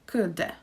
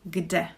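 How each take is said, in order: First: The word begins with a k sound. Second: The word begins with a g sound. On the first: The speaker calls it wrong. "I don't say kde" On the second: The speaker calls it right. "I say kde. So this is the assimilation"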